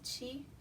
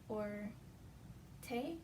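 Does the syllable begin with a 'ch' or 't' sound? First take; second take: ch sound; t sound. First: The syllable begins with a 'ch' sound. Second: The syllable begins with a plain 't' sound. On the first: "chi, or te, or chi, depending on the word" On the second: "chi, or te, or chi, depending on the word"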